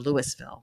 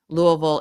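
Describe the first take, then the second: First: The name is said the way outsiders say it. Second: The name is said the way locals say it. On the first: The speaker is not from the city. The speaker calls it wrong. "not Louisville or Louisville. Ugh, we don't like that" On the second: The speaker is from the city. The speaker calls it right. "you can tell if someone is from Louisville because they say it Louisville"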